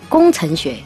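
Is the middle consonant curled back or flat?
flat. The ch is flat, with no back nasal. "我们就会发成工程学"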